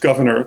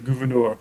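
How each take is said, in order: First: The name is pronounced like English 'governor'. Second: The name is pronounced the French way. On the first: "just governor, the way I've been saying it" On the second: "in the French way"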